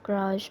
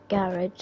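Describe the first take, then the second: First: Garage is said with an American pronunciation. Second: Garage is said with a British pronunciation. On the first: "instead of garage" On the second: "I'll be saying um, garage a lot ... because I'm from the U K"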